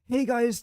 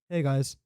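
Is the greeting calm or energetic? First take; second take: energetic; calm. First: The greeting is loud and highly energetic. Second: The greeting is soft and calmly relaxed. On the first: A hyped-up, attention-seeking presenter style. The speaker calls it wrong. "It's not over the top. It's not like" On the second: A laid-back, soothing presenter style. The speaker calls it right. "It's just I don't know. It's it's nice and relaxing"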